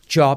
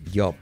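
First: It begins with a voiced 'j' sound. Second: It begins with a 'y'-like sound. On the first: The speaker calls it right. "en lugar de decir trabajo, job" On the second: The speaker calls it wrong. "decimos job, y eso está mal"

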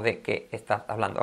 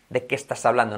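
First: The words are said separately, one by one. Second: The words are run together as one. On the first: The speaker calls it wrong. "No de qué estás hablando" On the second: The speaker calls it right. "Like in Spanish"

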